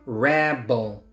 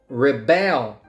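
First: The stress is on the first syllable. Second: The stress is on the second syllable. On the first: It is a noun: a person who resists. "So the noun is rebel" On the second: It is a verb: to resist. "The verb"

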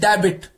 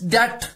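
First: The b is pronounced, giving two syllables. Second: The b is silent, giving one syllable. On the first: The speaker calls it wrong. "कभी कुछ लोग कहते हैं कि डेबिट" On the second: The speaker calls it right. "B is silent, it's DEBT"

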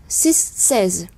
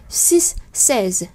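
Both takes have the same delivery.

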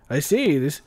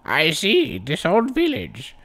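First: It is said in his normal voice. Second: It is said in an old man voice.

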